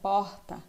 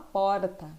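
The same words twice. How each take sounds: First: The r is more drawn out, Rio-style. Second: It is said in a São Paulo city accent. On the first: "Carioca, é, baiano já falam R mais arrastado" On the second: "O paulistano, ele costuma falar porta"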